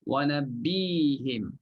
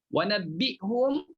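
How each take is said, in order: First: The h is followed by an i vowel. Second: The h is followed by an u vowel. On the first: This is the reading of some reciters of one tradition. "sebahagiannya pula baca dengan wa nabbihim" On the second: This is the reading chosen by most scholars. "itu mengikut mazhab jumhur ulama"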